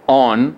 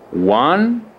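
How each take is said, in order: First: It begins with a plain o vowel. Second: It begins with a w sound. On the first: The speaker calls it wrong. "Eu não falo on" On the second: The speaker calls it right. "Eu falo one"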